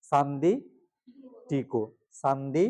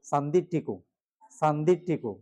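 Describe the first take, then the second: First: সান্দি and টিকো said apart with a pause between; split into parts. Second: সান্দি টিকো run together as one word. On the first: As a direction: break the word into two pieces. (আলাদা করে সান্দি টিকো) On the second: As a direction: join সান্দি and টিকো with no break. (একসাথে উচ্চারণ সান্দি টিকো) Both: Shown as a demonstration. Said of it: "একসাথে বলতে হবে এটা".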